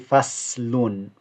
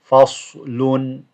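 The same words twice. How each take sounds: First: The s sound is light and thin. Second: The s sound is heavy and full. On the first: The speaker calls it wrong. "if it was a sin, you'll say faslun" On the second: The speaker calls it right. "but it's a sad. So you are saying faslun"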